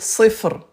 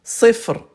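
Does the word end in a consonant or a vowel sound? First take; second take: consonant; consonant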